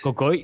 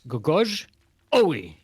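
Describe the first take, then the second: First: The J is said as a Y sound. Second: The J is said as a J sound. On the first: "J is pronounced like a Y" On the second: "because you have to emphasize the capital letter there"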